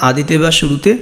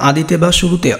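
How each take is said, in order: Both takes have the same delivery.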